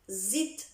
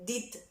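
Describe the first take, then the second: First: The word begins with a plain z sound. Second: The word begins with a plain d sound. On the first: "Zid de değil. O Sırpçada öyle kullanılır" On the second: "Did değil"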